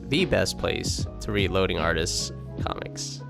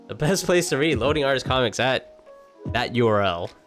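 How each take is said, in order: First: It imitates the way he says it. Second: It is read in the speaker's plain voice.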